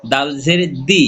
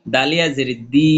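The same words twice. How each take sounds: First: Final দি kept short; recited spelling with a brief দি; short vowel. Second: Final দি stretched one alif; long madd vowel. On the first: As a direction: say দি without stretching. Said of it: "হরকত উচ্চারণ তাড়াতাড়ি পড়বো". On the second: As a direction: hold the vowel of দি. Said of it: "এক লিপ টেনে পড়বো". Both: Shown as a demonstration.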